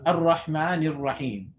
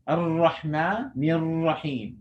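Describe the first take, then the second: First: The r sound is short and light. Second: The r sound is drawn out and trilled. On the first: "Without the stretching" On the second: "I'm stretching to show the ra"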